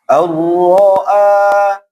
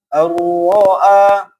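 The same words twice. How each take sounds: Both takes have the same delivery.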